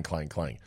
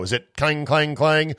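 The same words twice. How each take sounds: First: Soft lower clang, clang; faded hollow clanging; clang sound. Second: Imitating a hollow metal clang; playful clanging noise; clang sound. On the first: Retold or imitated. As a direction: quietly echo clang, clang like tin. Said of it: "hollow aluminum one that went clang". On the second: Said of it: "like an empty Christmas tree".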